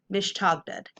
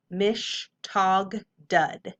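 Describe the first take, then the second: First: Mish, tog, dud run together; blended whole word. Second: Mish, tog, dud as separate beats; syllable by syllable. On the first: Teacher reading the whole word to students, blended. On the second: Teacher sounding out the word for students, syllable by syllable. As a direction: give MISH, TOG and DUD each its own beat. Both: Shown as a demonstration. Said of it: "Whole word".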